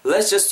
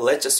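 First: It is said slowly and fully. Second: It is said fast and reduced.

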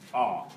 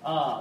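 First: The sound is made deep in the throat. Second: The sound is a plain open vowel. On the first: "이게 후음이라고" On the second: "우리 그냥 아 이러잖아요"

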